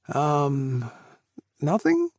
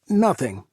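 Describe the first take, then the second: First: It rises at the end like a question. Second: It falls at the end like a statement.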